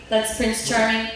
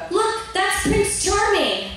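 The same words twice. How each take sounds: First: Said in the usual way. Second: Put-on high, slow little-girl voice. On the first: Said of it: "And I said". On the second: Little girl showing the storybook, in a high, slow voice. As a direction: say it like a wide-eyed little girl. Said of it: "and she goes".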